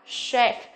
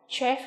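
First: The word begins with a soft sh sound. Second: The word begins with a hard k sound. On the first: The speaker calls it right. "từ C phát âm là chef" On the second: The speaker calls it wrong. "chứ không phải là chef"

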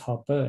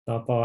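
First: The second syllable ends in an 'er' sound. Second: The second syllable ends in an 'o' sound. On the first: The speaker calls it right. "อันนี้อ่านว่า" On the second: The speaker calls it wrong. "อย่าไปอ่านว่าตอปอนะ"

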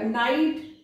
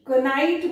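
First: The word starts with an n sound. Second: The word starts with a k sound. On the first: This is the modern pronunciation. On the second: This is how it was said long ago.

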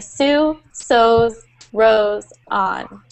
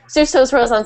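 First: The phrase is said slowly, each word enunciated. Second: The phrase is said quickly, words running together. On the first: "we slow down. So we pronounce and enunciate the words" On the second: "instead of saying"

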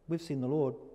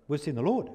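First: It is said in a teasing, taunting voice. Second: It is said in an excited voice. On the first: They are gloating over the one who missed it. "Na, na, na, na, na, na" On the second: They are thrilled by what happened. "were they excited?"

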